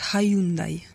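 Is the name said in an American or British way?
British. It is said the British way, unlike Sunday.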